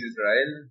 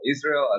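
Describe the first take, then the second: First: The name is said with a Spanish pronunciation. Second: The name is said with an American English pronunciation.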